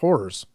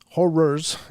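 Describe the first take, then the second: First: The word is said loosely and unclearly. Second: The word is said with careful, exaggerated enunciation. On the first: The speaker calls it wrong. "So not" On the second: The speaker calls it right. "Just really enunciate the hell out of that"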